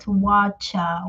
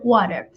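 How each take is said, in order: First: It is said in a British pronunciation. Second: It is said in a non-British pronunciation. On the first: "pronounced by one people from United Kingdom" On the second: "as I pronounce it right now"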